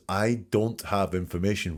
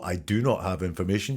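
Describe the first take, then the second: First: Said in the usual way. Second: "not" said fully and pressed; uncontracted "do not" stressed. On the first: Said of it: "She says". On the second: Shown as a demonstration. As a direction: spell out "do not" with weight on "not". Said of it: "It's not".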